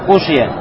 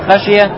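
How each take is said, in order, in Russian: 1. Первый гласный — 'u'. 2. Первый гласный — 'a'. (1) "с даммой над ха" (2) "с фатхой над ха"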